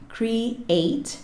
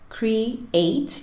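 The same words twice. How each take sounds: The two takes are said the same way.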